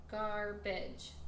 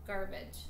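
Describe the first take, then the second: First: "Garbage" slowly in two beats; split into syllables. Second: Said in the usual way. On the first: Shown as a demonstration. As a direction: break "Garbage" into gar, pause, bage. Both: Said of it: "count how many syllables".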